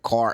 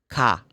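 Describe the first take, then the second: First: The word ends with an audible r sound. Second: The word ends in an open vowel without r. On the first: "They don't pronounce it's like car" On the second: "No, it's open. Ka"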